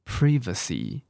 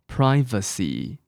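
First: It is said in a British accent. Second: It is said in an American accent. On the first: "那我们要不要来印一下" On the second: "这个是美式英文哦"

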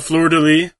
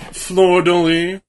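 First: It is said in a plain everyday accent. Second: It is said in a put-on French Canadian accent.

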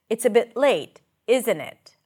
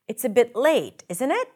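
First: The voice falls on the tag at the end. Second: The voice rises on the tag at the end. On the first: The speaker is making a statement, not asking. "But when I use the falling intonation" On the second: The speaker is really asking and wants a response. "When you use rising intonation in the second part, the tag, it usually suggests that you are uncertain"

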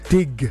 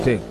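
First: The final consonant is clearly pronounced. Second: The final consonant is weak or dropped. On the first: The speaker calls it right. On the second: The speaker calls it wrong.

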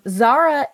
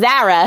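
First: The name is said in a careful standard accent. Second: The name is said in a New Jersey accent.

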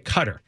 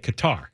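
First: It is pronounced the way Americans say it. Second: It is pronounced the way Middle Easterners say it. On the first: "Americans say Qatar" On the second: "Foreigners say Qatar"

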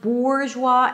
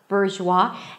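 First: The first vowel sounds like oo. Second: The first vowel sounds like er. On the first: "it's not an OO sound, it's not bourgeois" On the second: "the tongue doesn't go up too quickly and then it sounds something like Burr"

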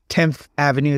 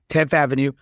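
First: It is said in a polished, articulate accent. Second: It is said in a thick street accent.

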